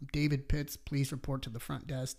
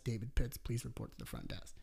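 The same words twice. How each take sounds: First: Flat echoey PA announcement; intercom page. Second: Fading echoey PA repeat; softer second call over the speaker; intercom page. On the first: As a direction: page it like over a loudspeaker. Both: Retold or imitated. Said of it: "I get a page over the intercom".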